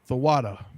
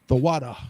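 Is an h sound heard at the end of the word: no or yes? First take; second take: yes; yes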